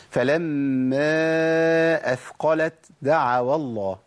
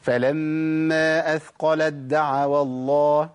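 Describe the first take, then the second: First: أثقلت دعوا with a whispered ت before د; breathy t wrongly. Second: أثقلت دعوا with the ت merged into a doubled د, slow; assimilated t. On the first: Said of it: "أنا كده عملت همس". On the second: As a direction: drop the ت and press the د of دعوا. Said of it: "إدغام تاء في دال". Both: Shown as a demonstration.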